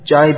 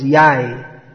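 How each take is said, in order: First: The word begins with a J sound. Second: The word begins with a Y sound. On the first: "There's no J in Spanish, so Jai becomes Yai" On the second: "There's no J in Spanish, so Jai becomes Yai"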